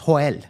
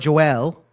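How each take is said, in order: First: The name is said with a Spanish pronunciation. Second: The name is said with an American English pronunciation. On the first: "in Spanish it's Joel" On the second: "the American way of saying it"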